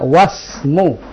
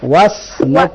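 First: Wa runs straight into the s sound. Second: The same.

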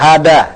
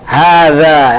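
First: The middle consonant is a plain d sound. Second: The middle consonant is a soft th sound. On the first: The speaker calls it wrong. "dalnya dari baca dah, hada" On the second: The speaker calls it right. "hada yang betul"

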